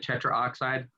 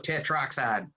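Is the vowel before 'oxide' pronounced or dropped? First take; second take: pronounced; dropped. First: Every vowel is fully pronounced, including the middle 'a'. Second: The middle 'a' vowel is dropped. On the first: "getting all those vowels uh, enunciated" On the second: "hillbilly it and just go tetroxide"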